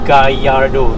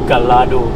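First: The double L sounds like a Y. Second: The double L sounds like an L. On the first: The speaker calls it right. "that's how you pronounce it with the Y" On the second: The speaker calls it wrong. "not Gallardo"

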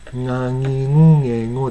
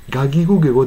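First: The g sounds are nasal, like ng. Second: The g sounds are plain, hard consonants. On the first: "ともかく鼻にかかる。" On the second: "ガギゴゲゴではない。"

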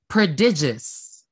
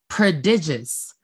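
First: The syllable after 'd' has an 'ih' sound. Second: The same.

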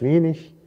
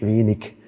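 First: The word ends in a soft ch sound. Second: The word ends in a hard k sound. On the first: This is the northern German standard. "Also norddeutsche Standarddeutsch" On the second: This is the southern German standard. "Süddeutsche Standarddeutsch, inzwischen erlaubt"

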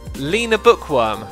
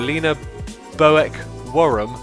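First: The surname's first part sounds like 'book'. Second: The surname's first part does not sound like 'book'. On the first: The speaker calls it right. "the Boek part is pronounced book" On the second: The speaker calls it wrong. "What did I say a moment ago?"

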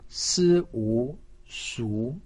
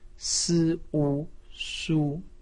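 First: The pitch rises from middle to high. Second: The pitch stays high and level. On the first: "二声" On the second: "一声"

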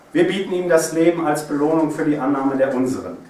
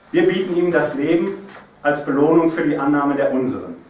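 Both takes have the same delivery.

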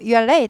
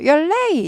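First: It is said flatly, without strong feeling. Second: It is said with surprised, exclamatory emotion. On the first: The speaker calls it wrong. "아니고" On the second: The speaker calls it right. "놀래니까 어떻게 돼요? 감탄부어. 느낌표까지 있어요"

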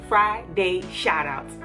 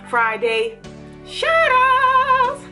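First: It is said flatly, with little energy. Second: It is said brightly, with lively energy. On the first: The speaker calls it wrong. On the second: The speaker calls it right.

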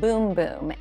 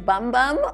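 First: The vowel sounds like the 'oo' in 'food'. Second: The vowel sounds like the 'u' in 'cup'. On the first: "in Brazil, they pronounce it boom boom" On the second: "it looks like it says bum bum on the little jar"

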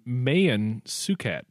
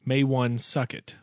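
First: The first name is said without a 'w' sound. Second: The first name is said with a 'w' sound. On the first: The speaker calls it right. "he was actually named Mayan Suket" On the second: The speaker calls it wrong. "which some people pronounce it"

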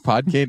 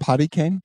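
First: The name begins with a one-syllable 'pod'. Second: The name begins with a two-syllable 'potty'. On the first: The speaker calls it right. "That's not how you say it" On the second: The speaker calls it wrong. "that's how I remember pronouncing it as a kid"

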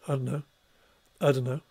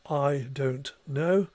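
First: Several sounds in the phrase are dropped. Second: Every sound in the phrase is fully pronounced. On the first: "phonetically could be pronounced, ... several sounds have just simply gone missing there"

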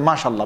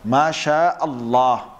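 First: Masha runs straight into Allah without a catch. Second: A glottal catch separates Masha from Allah. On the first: The speaker calls it wrong. "It's actually wrong" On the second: The speaker calls it right. "That's the proper way of saying it"

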